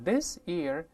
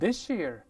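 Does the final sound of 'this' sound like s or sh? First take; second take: s; sh. First: The s stays a plain s sound. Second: The s changes into an sh sound.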